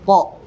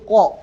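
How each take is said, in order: First: The consonant is pronounced thick, deep in the throat. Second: The same.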